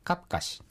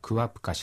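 First: The prefix merges into the verb, giving ka-. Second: The prefix vowel is kept, giving kua-. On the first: The speaker calls it right. "サル方言ではカプカシという発音になってしまいます" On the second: The speaker calls it wrong. "クワプカシではなく"

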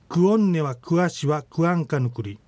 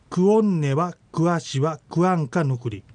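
First: The sentence is spoken at a normal pace. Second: The sentence is spoken a little more slowly.

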